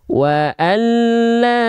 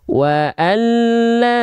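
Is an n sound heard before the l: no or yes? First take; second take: no; no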